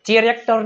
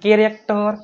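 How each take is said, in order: First: The word begins with a ch sound. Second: The word begins with a k sound. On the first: The speaker calls it wrong. "ચેરેક્ટર નહીં" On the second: The speaker calls it right. "નહીં કેરેક્ટર"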